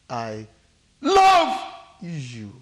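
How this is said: The stress falls on the word love. "The emphasis is where? Love. Love"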